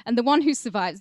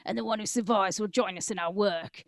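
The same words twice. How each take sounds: First: Put-on "And the one who survives" in a loud Mexican gangster accent. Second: Put-on "and the one who survives" redone in a Cockney gangster accent. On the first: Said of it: "Should I do a Mexican accent?". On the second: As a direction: switch to a London Cockney thug on "survives". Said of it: "this is actually be good in Cockney".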